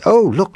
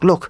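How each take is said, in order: First: Put-on high, happy little girl; a girl bursting with joy; girl cries out at the dancer; happy cry. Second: Said in the usual way. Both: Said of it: "cried out happily".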